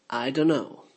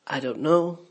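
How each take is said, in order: First: "I don't know" run together as "I dunno"; swallowed contraction. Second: Said in the usual way. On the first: Shown as a demonstration. Teacher showing the native contraction, swallowed. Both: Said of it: "the words get swallowed and contracted".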